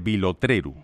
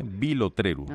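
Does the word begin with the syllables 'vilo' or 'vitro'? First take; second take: vilo; vilo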